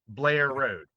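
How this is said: It is squeezed into one word, Baltimore style.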